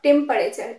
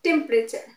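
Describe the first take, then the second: First: The middle vowel is pronounced. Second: The middle vowel is silent. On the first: The speaker calls it wrong. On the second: The speaker calls it right. "it's temperature ... will not be pronounced"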